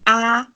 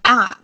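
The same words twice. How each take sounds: First: The syllable is said with the first tone. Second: The syllable is said with the fourth tone. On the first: "the first tone is going to be a" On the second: "fourth one is going to be a"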